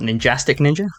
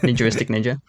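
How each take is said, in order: First: The first word drops the 'ar' syllable. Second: The first word has the extra 'ar' syllable. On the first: The speaker calls it wrong. "It's not" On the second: The speaker calls it right. "That is how it's pronounced"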